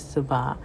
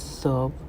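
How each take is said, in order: First: The word is said as two full syllables. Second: The word is said as one short syllable. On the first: This is an alternative form, preferred in this sentence. "an alternative pronunciation is subah" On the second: This is the usual form when the word stands alone. "by itself usually pronounced as sub"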